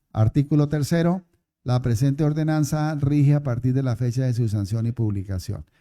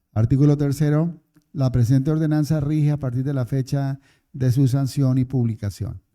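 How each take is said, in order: The two takes are said the same way.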